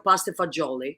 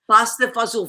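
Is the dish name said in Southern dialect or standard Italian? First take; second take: standard; Southern dialect. First: The last word is said in standard form. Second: The last word is said in Southern dialect form. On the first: This is the name used when ordering in a restaurant. "if you're in a restaurant, you'll ask for" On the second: This is the homely slang name used at home. "Fazool is like a slang way of saying beans, and it's so s truly Italian, like, uh, like Southern Italian"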